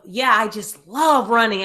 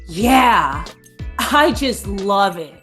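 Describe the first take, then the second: First: It is said sincerely, with real enthusiasm. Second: It is said sarcastically, not meaning it.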